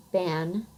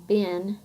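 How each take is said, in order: First: Said in the usual way. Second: "bin" with a short i where e is usual; Southern pin-pen merger. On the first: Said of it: "instead of ban". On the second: Shown as a demonstration. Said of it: "pronounced with the same vowel sound".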